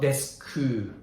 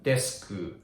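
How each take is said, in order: The two takes are said the same way.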